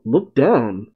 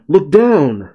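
First: Said in the usual way. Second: Mild mock yell; a half-hearted shout of warning; retold yell. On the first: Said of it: "Sanji makes out". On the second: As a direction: call it out lightly, as if warning friends. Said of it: "Bonnie yells to them".

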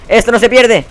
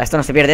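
First: Loud high yell of defiance; shouting at the game. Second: Said in the usual way. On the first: Real, not acted. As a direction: yell it to rally yourself. Self-encouragement in a losing match. (grito desafiante y agudo)

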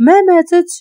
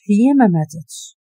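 First: Shouted, much higher and louder; sudden furious outburst. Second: Said in the usual way. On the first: Acted. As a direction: yell the denial at his friend. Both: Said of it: "غوت عليه".

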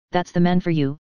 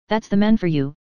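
First: Cool, dismissive sneer on "man"; a light mock scorn, falling on "man for you"; scornful. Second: A touch of bitterness, lifted on "man" then falling; bitter. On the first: Niece imagining aunt scorning the man, mildly scornful. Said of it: "I could hear her scornful". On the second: Acted. Aunt grumbling about the absent minister, mildly bitter. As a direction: say "That's the man for you" with a mild bitter edge. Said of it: "said Aunt Philippa bitterly".

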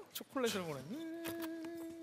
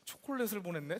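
First: 초콜릿을 stretched very slowly, higher and hushed; 초콜릿을 보냈네 dragged out in disbelief; 초콜릿을 drawn out slowly. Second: Said in the usual way. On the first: Shown as a demonstration.

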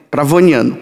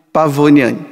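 No difference in how they are said.

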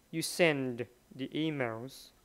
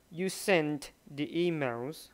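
First: Slow, send given the weight; nhấn mạnh chữ send; stress on send. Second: Slow, sent given the weight; nhấn mạnh chữ sent; stress on sent. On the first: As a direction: lean on send, slowly. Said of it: "với lại send". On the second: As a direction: lean on sent, slowly. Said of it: "Họ nhấn chữ sent". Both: Shown as a demonstration.

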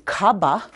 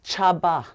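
First: "kaba" with a hard k, the wrong way; wrong k sound. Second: "chaba" starting with a clear ch; right ch sound. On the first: Teacher contrasting wrong "kaba" with a hard k. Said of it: "I'm not saying kaba". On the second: Teacher giving the right "chaba" with ch. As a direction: say "chaba" with ch, not k. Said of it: "I'm saying chaba". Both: Shown as a demonstration.

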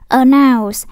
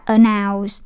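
First: "announce" with NOUNCE held level, not dipping; slow "announce", steady stressed NOUNCE. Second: "announce" with NOUNCE dipping low; wrong low tone. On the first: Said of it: "nó thuộc thanh ngang". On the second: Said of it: "cũng chẳng phải dấu quyền". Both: Shown as a demonstration.

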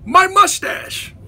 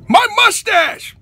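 First: Said in the usual way. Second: My mustache! punched higher with a falling end; My mustache! louder, stress on My; emphatic exclamation. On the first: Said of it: "repeats his topic". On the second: Acted. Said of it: "repeats topic emphatically".

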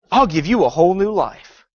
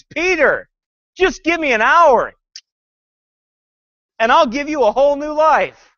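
First: Sly serpent hiss. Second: High pleading movie Jesus. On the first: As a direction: let the snake hiss through it. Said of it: "hear the hiss of a serpent". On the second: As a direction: beg him, higher and louder. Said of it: "Jesus pleads". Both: Retold or imitated.

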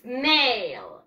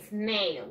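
First: "snail" starting straight on a long s, no vowel before it; "snail" drawn out slowly with a falling glide; correct pronunciation. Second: "snail" with an added e in front, "es-neil"; "snail" quickly, led in by a vowel; wrong pronunciation. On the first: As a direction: stretch "snail" out, opening on a clean "sn". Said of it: "No, yo digo". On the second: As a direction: say "snail" the Spanish way, as "esneil". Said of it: "yo no digo". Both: Shown as a demonstration.

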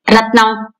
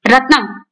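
First: Irritated. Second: Sharp rebuke. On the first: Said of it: "విసుగ్గా అన్నారాయన". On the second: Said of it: "గద్దించాడు Narayana". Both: A narrator's reading.

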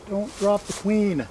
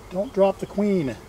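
Both takes have the same delivery.

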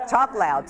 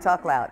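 First: Raised, louder and higher, to carry to the room; talking louder. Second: Steady raised volume, settling back in pitch; talking loud. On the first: Author at a reading, reminding herself to speak up loudly. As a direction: push the voice out so the back row hears. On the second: Author at a reading, repeating to herself to stay loud. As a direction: keep it up, but calmer now. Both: Real, not acted. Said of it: "I'm talking quiet".

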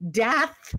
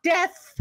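First: "Death" pronounced as Dath, with an A; "Death" corrected to Dath, set apart slowly; corrected name DATH. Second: "death" as the misheard word, higher; "death" as the everyday word, being ruled out; wrong name DEATH. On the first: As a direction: say "Death" as the surname D-A-T-H. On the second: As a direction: say "death" with the short E of "bed". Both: Retold or imitated. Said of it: "D A T H".

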